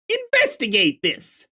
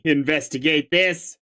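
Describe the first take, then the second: First: Much higher, punched Investigate this; a hammed-up investigate command; emphatic command. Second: Said in the usual way. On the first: Shown as a demonstration. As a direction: order it with mock urgency.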